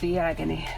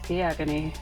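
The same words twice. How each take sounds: First: It is said dramatically, with strong expression. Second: It is said flatly, with little expression. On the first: The speaker calls it right. "how about that?" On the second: The speaker calls it wrong. "Really hear the expressions in my voice right there"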